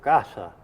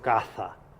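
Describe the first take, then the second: First: The middle consonant is an 's' sound. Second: The middle consonant is a 'th' sound. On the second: "No digo"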